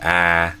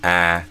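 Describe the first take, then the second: First: The vowel is made further front in the mouth. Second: The same.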